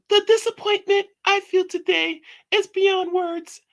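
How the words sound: It is read in a put-on female voice.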